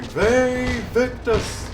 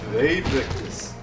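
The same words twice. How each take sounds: First: It is screamed loudly. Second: It is said quietly and calmly.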